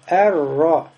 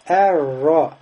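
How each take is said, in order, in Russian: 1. Звук r удвоен только кратко. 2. Звук r удвоен только кратко.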